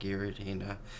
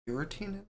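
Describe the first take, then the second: First: It begins with a hard G sound. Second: It begins with a soft J sound. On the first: The speaker calls it wrong. "All this time, I've been saying Giratina" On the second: The speaker calls it right. "he's right"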